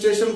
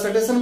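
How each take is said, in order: First: It starts with a clean 'st' cluster. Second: A vowel is inserted between 's' and 't'. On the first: This is how educated people say it. The speaker calls it right. "जैसे हम लोग स्टेशन बोलते हैं साफ से" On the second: This is how unschooled village people say it. The speaker calls it wrong. "देहात वाला सटेशन बोल देगा"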